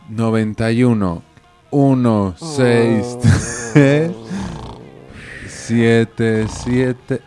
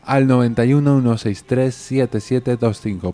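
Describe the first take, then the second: First: The number is said slowly. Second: The number is said fast.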